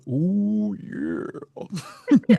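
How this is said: It imitates the Ferris Bueller song's oh yeah.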